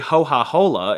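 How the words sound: The k sounds are breathed out as h sounds.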